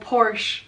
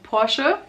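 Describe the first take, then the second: First: It is pronounced the way English speakers say it. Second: It is pronounced the way Germans say it. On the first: This is how foreigners say the name. The speaker calls it wrong. "Porsche is not called Porsche for us where it comes from" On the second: This is how people where it comes from say it. The speaker calls it right. "it's called Porsche"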